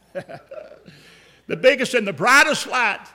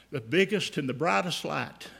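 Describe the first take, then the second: First: Laughing wonder. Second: Said in the usual way. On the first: Shown as a demonstration. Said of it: "repeats with laugh, slower". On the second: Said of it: "repeats line with a laugh".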